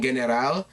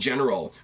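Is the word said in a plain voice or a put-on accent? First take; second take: put-on accent; plain. First: The word is said in a put-on accent. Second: The word is said in a plain accent. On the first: "they pronounce it the Ring General. I, I'm terrible. I shouldn't do accents" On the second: "they're saying general"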